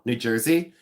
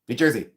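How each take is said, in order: First: It is said in her normal voice. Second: It is said in a fast auctioneer voice.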